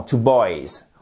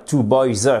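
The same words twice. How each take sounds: First: Put-on "two boys" with a smooth z, no extra syllable; drawn-out "two boys" ending cleanly on z; correct plural ending. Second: Put-on "two boys" with an extra "zeu" syllable on the end; overdone z tacked onto "two boys"; wrong detached Z. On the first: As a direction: say "two boys" slowly, z joined to the word. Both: Shown as a demonstration. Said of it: "vous n'allez pas dire".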